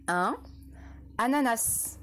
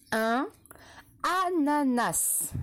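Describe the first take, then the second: First: Said in the usual way. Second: "ananas" drawn out slowly syllable by syllable; slow dictation. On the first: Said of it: "deux mots là aussi". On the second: Shown as a demonstration. Teacher dictating to young pupils, slow and careful. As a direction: stretch each syllable of "ananas". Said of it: "Attention, deux mots".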